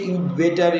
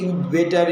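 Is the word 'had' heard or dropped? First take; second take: dropped; dropped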